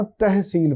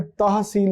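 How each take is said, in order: First: तहसील read as "tehseel", the majhool zabar; correct majhool "teh". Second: तहसील with a full open "tah", the maroof way; तहसील read as "tahseel", the clear ma'roof vowel; wrong clear "tah" reading. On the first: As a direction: say तहसील with the first vowel shaded toward "e", as "teh". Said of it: "तहसील पढ़ना है". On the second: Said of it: "तहसील नहीं पढ़ना". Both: Shown as a demonstration.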